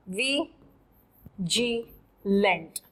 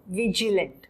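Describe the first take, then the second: First: Vigilant split slowly as वी, then जी लेंट; syllable by syllable. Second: Said in the usual way. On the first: Shown as a demonstration. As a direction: break the word वी जी लेंट into syllables for students. (शब्द को धीरे-धीरे टुकड़ों में बोलें: वी... जी लेंट)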